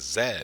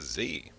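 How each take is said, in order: First: The letter is said the Canadian way. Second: The letter is said the American way. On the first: "a Canadian, and other expedition members pronounce the Z as Z" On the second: "The American characters in both shows pronounce the Z in Z P M as Z"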